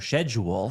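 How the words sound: The word is pronounced the British way.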